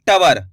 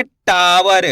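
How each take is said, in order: First: टावर with टा cut short to "ta-var"; short first vowel. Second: टावर with long, stressed टा; stretched first syllable. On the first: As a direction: say टावर quickly, no long aa. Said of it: "ऐसे नहीं पढ़ेंगे". (टावर को बिना खींचे, टवर जैसा) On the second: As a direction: draw out the aa in टावर. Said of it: "टा पे जोर लगाएंगे". (टावर में टा पर ज़ोर) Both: Shown as a demonstration.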